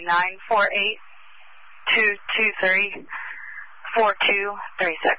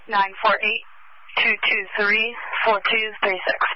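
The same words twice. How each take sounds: First: The number is read more slowly. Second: The number is read at normal speed.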